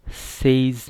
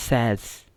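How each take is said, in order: First: सेज with a long "ay" vowel, rhyming with days; wrong pronunciation. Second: Says with a short open vowel, "sez"; correct pronunciation. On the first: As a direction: say सेज as "sayz". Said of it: "सेज नहीं है". (सेज का गलत उच्चारण, लंबा "ए") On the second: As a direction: model Says to rhyme with fez. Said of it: "Correct pronunciation for this word". (Says का सही उच्चारण, छोटा "ऐ") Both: Shown as a demonstration.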